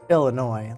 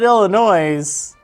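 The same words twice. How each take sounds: First: The final S sound is silent. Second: The final S sound is pronounced. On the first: The speaker calls it right. "it's supposed to be" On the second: The speaker calls it wrong. "you're saying it wrong"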